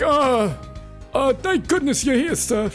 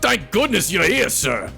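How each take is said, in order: First: It is a cartoon Luigi-style voice. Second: It is a very raspy, rough voice.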